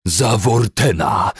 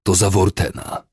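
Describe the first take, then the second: First: Loud, high, drawn-out battle cry; screaming. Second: Heavy, vengeful statement; panting. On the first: Commander screams while hacking at captives, screaming. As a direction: scream it as you strike. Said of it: "wrzeszczał". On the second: Commander names his reason while beating captives, panting. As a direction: say Wortena with winded anger, short of a scream. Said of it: "wysapał". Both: A narrator's reading.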